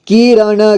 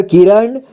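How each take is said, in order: First: किरण as कि-र-ण, final vowel sounded; syllable by syllable. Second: Said in the usual way. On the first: Shown as a demonstration. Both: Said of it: "एक ही बार में पढ़ेंगे".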